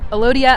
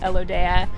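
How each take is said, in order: First: The name is said the common Alaskan way. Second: The name is said the lower-48 way. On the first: This is how people in Alaska say it. "it's called Al- Alodia up in Alaska commonly" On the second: This is how people in the lower 48 say it. "in the lower forty-eight people call it Elodea"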